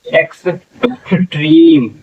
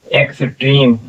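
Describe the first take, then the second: First: extreme drawn out, slightly higher; slow demo. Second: Said in the usual way. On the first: Shown as a demonstration. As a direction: slowly model extreme, each sound stretched. (Extreme धीमे खींचकर)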